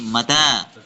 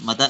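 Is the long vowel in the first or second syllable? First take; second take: second; first. First: The second vowel is long. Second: The first vowel is long. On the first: When? The speaker calls it right. "Tapi mata" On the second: He died. The speaker calls it wrong. "jangan mata ya"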